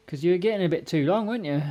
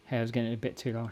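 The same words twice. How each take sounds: First: Pet talk. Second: Said in the usual way. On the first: Real, not acted. Talking to the cat.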